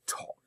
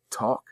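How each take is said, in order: First: Whispered Talk. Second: Said in the usual way. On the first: Shown as a demonstration. Principal urging staff to talk, whispering Talk. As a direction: Talk whispered, barely voiced. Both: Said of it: "learning to communicate and talk".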